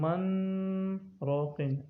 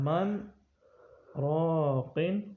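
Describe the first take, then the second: First: The two words run together without a stop. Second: The voice stops briefly after 'man' without breathing. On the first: The speaker calls it wrong. "ऐसे नहीं पढ़ना" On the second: The speaker calls it right. "बल्कि वक़ील मन राक़िन"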